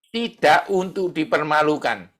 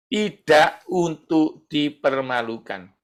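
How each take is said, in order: First: Said in the usual way. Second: Slow, measured "tidak untuk dipermalukan", word by word; slow emphatic repeat. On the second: Shown as a demonstration. Preacher repeats a key point to the congregation, slow and emphatic. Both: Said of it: "Saya ulangi".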